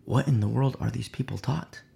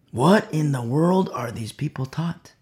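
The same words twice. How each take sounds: First: Said in the usual way. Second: "What" stressed with a rising tune; rhetorical emphasis. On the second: Shown as a demonstration. Pastor pressing the congregation, stress on "What". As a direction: lean on "What" and let it rise.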